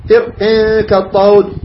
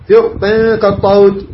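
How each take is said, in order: First: فر كالطود drawn out slowly with a heavy ra; slow tajweed recitation. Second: فر كالطود recited slowly again with the ra held heavy; slow tajweed recitation. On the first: Teacher reciting فر كالطود slowly for students. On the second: Teacher repeating the recited phrase slowly for students. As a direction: chant فر كالطود slowly, pausing on each word. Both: Shown as a demonstration. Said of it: "قف لي على فر".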